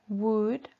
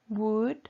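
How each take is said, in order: The two takes are said the same way.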